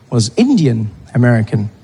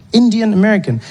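First: Said in the usual way. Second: Indian American said higher, with a falling end; repeated in surprise. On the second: Shown as a demonstration. Comedian repeating a term he learned at Thanksgiving, higher and wondering. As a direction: echo the phrase in wonder.

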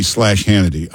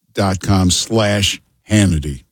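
First: Said in the usual way. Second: "dot com slash Hannity" said slowly, each word spaced out; slowed, deliberate. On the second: Shown as a demonstration. Host repeating the sponsor's web address slowly for listeners. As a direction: spell the web address out at an unhurried pace.

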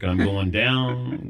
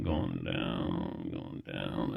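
First: Slow, drawn-out mock sinking; woozy collapse. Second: Much lower and softer, trailing into a faint; fading away. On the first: Recounting his faint to the crew, woozy and sinking. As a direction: stretch it out as if keeling over. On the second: Retold or imitated. Acting out his faint for the crew, fading out low. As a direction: sink to a low, fading mock collapse.

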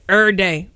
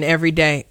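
First: "every day" squeezed into "er'day"; slangy contraction. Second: Said in the usual way. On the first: Real, not acted. Host boasting of convention attendance, "every day" slurred to "er'day". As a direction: say "every day" as two syllables, "er-day", dropping the middle. Slangy repeat of the same words.

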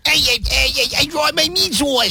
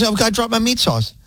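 First: Squealy, very high caricature; exaggerated high voice with a bad accent; Nate's Danielle impression. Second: Higher-pitched mock dismay; lightly voiced coworker fretting over a mishap; imitating Danielle. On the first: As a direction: do a drawn-out, high-pitched mockery of a coworker. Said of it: "that's how he thinks you sound". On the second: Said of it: "that's not what she sounds like".

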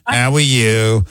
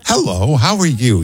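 First: Mock New York accent, drawn out slow; exaggerated New Yorker's greeting, stretched out. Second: Imitating a sweet, warm hello; lilting, friendly small-town greeting; friendly Utah greeting. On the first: Host contrasting Utah with New York, mock New York accent. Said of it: "if it was from New York, it'd be". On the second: Host imitating the Utah caller's greeting, friendly and sweet. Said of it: "I can tell you're from Utah. You know, you sound so friendly".

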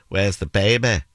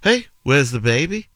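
First: Put-on Manchester accent, baby ending in an open "ba"; put-on Manchester vowels; Mancunian accent. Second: Higher, lilting Scouse question; put-on Scouse accent; Liverpool accent. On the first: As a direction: ask it like a Mancunian, falling at the end. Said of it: "Manchester, you'd say". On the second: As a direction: ask it like a Liverpudlian, pitch lifted. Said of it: "If you were in Liverpool". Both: Shown as a demonstration.

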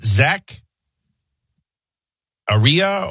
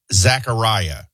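First: "Zach Aria" ending in ree-uh, broken after Zach; alternative pronunciation. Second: "Zachariah" ending in rye-uh; usual pronunciation. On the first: Host asking colleague, "Zach Aria" tried with a questioning ree-uh. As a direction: try "Zach Aria" with an ee sound in place of eye. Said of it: "or how are they pronouncing?". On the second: Host checking a storm name, "Zachariah" said with rye-uh ending. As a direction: say "Zachariah" with a long I, as in eye. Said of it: "I would pronounce this". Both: Shown as a demonstration.

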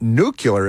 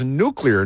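First: "nuclear" said NOO-kyuh-ler, the yuh sound slipped in; "nuclear" as nook-yuh-ler, mocking the common slip; wrong nuclear. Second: "nuclear" said NOO-klee-er, three clear syllables; "nuclear" as nook-lee-er, the kl sound kept together; correct nuclear. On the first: Host mocking the mispronunciation: "nuclear" as NOO-kyuh-ler. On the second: Host showing the right way: "nuclear" as NOO-klee-er. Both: Shown as a demonstration. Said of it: "the word is nuclear, not nuclear".

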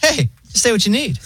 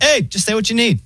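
First: High, laid-back AI operator voice; so chill robot voice. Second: High, chill AI phone voice; breezy automated assistant, pitched way up; robot voice. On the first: Retelling the pharmacy AI to friends, high chill robot voice. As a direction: imitate a relaxed robot receptionist, pitched high. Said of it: "the robot voice is, like, so chill". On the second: Mocking the pharmacy AI on the phone, chill high voice. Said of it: "And then it's like". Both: Retold or imitated.

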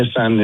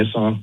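First: "Nissan" ending in a flat "san", as in "sand". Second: "Nissan" ending in an open "sahn". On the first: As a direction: say Nissan as NISS-ANN. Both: Shown as a demonstration. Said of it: "everybody calls it differently".

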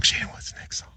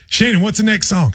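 First: Imitated whisper, very soft; whispered echo. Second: Said in the usual way. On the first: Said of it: "and then whisper it". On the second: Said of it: "Everything you would say it".

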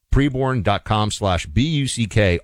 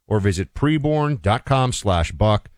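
First: "B U C K" said letter by letter; spelled out. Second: Said in the usual way. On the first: Real, not acted. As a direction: spell out "B U C K" clearly. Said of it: "spells out the letters". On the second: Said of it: "ad read, then spells it".

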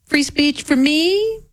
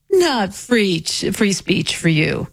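First: "me" drawn out and rising high; slow, high lift up to "me"; pointed contrast. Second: "you" slow and falling; pointed contrast. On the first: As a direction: set up the double standard, hanging on "me". Contrasts me with you. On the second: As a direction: close off the double standard, dropping on "you". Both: Acted.

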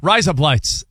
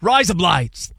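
First: Light Australian twang on rise up lights; Australian accent. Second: Australian accent. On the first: Joking to co-host, in a mild Australian accent. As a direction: say it the Aussie way so it sounds like razor blades. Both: Shown as a demonstration. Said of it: "in an Australian accent".

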